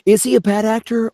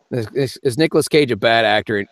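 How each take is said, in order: First: High, excited Nicolas Cage voice. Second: Said in the usual way. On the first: Shown as a demonstration. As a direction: ask it like a manic Nicolas Cage. Repeats it in a put-on voice.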